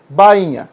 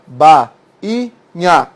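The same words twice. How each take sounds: First: Said in the usual way. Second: "ba, i, nha" said syllable by syllable; each syllable of "ba, i, nha" said apart; split into syllables. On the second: Shown as a demonstration. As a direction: break bainha into ba, i, nha.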